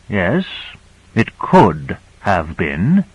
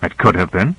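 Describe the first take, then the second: First: "could" drawn out slowly; "could" stretched, ending on a suggestive rise; weighted concession. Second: Said in the usual way. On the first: A narrator's reading. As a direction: slowly repeat it, leaning on "could". Same answer repeated with weight.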